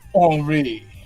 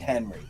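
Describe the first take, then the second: First: The name is said with French pronunciation. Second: The name is said with English pronunciation. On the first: "they were pronouncing it Henri" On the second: "I'm calling it Henry. I'm not saying it the weird French way"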